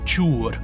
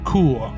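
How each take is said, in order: First: The name is said in a non-German way. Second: The name is said in the German way.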